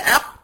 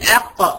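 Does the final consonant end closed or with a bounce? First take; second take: closed; bounce. First: The final qaf is held closed with no release. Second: The final qaf is released with a slight bounce. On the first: The speaker calls it wrong. "من غير ما اعمل قلقلة" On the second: The speaker calls it right. "لكن لما اقول اق"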